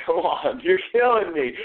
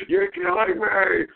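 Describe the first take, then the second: First: High-pitched exasperation; high, fed-up complaint; exasperated plea. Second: Very high, drawn-out whine; slow, high, hammed-up exasperation; exasperated wail. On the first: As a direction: plead with a stubborn dog. Pleading with disobedient dog. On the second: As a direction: wail it slowly in despair at the dog. Pleading with disobedient dog, escalating. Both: Real, not acted.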